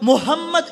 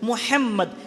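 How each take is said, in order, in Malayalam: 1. h ഒരു സാധാരണവും ലഘുവുമായ h ശബ്ദമാണ്. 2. h ആഴമുള്ളതും തൊണ്ടയിൽ നിന്നുള്ളതുമായ h ശബ്ദമാണ്. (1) "ഹ എന്ന ഉച്ചരിക്കുന്ന ആളുകൾ. ആ വാക്കും അർത്ഥവും എല്ലാം തെറ്റാണ്" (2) "ഹംദ് എന്ന പ്രയോഗം"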